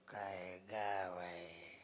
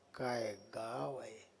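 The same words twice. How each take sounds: First: It sounds disparaging, belittling the village. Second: It sounds admiring, praising the village.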